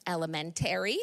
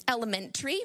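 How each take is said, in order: First: "elementary" ending in a full "tairy". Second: "elementary" ending in a quick "tree"; reduced-ending elementary. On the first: Speaker contrasting local accents, "elementary" with a full "-tary". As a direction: open up the end of "elementary" to "-tairy". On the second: Speaker contrasting local accents, "elementary" with a reduced ending. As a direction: squeeze the end of "elementary" to "-tree", pitched as a question. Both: Shown as a demonstration. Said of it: "I never say elementary".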